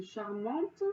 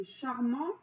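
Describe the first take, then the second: First: Charmante slow, with the final T clearly heard; final T sounded. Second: Said in the usual way. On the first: Shown as a demonstration. Teacher contrasting charmant for pupils, slow with the T heard. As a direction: stretch out charmante and land on the T. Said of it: "à la fin de charmant, il y a un T". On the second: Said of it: "Le féminin".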